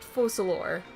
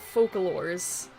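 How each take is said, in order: First: The name ends without an s sound. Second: The name ends with an s sound. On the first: The speaker calls it right. "I know it's Focalor" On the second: The speaker calls it wrong. "I keep pronouncing it Focalors"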